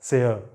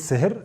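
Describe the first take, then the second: First: The final R is dropped, not pronounced. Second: The final R is pronounced as a consonant. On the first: The speaker calls it right. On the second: The speaker calls it wrong.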